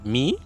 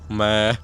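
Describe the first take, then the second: First: The word is said with an English vowel. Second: The word is said with a Spanish vowel. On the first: "как обычно в английском языке" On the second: "здесь"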